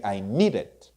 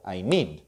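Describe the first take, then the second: First: "need it" run together as "needed", two beats; two-syllable needed. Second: "need" as a single syllable ending on D; one syllable need. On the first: Teacher models past tense for students, two-syllable needed. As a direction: add an "ed" syllable after "need". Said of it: "Two syllables". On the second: Teacher models present tense for students, one syllable need. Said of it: "I need one syllable". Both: Shown as a demonstration.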